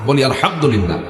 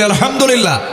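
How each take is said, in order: First: Said in the usual way. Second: Higher, louder Alhamdulillah; louder response. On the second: Shown as a demonstration. Preacher asking the crowd to say আলহামদুলিল্লাহ louder. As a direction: call it out so the crowd joins. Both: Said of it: "জোরে বলি".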